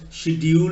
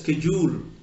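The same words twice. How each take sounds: First: The word begins with an 'sh' sound. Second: The word begins with an 'sk' sound. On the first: This is the British pronunciation. "The British pronounce it as a sh" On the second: This is the American pronunciation. "they pronounce it as sk"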